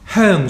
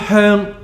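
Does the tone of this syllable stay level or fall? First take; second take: falling; level. First: The syllable is said on a high falling tone. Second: The syllable is said on a high level tone. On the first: It means fragrant, as in the place name. "高降調呢就係香港香氣香水啊" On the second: It means incense, as in burning incense. "呢個係高平調"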